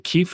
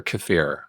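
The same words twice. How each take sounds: First: Kefir as KEE-fer; first-syllable stress. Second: Kefir as kuh-FEER; second-syllable stress. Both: Shown as a demonstration. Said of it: "is it kefir or kefir".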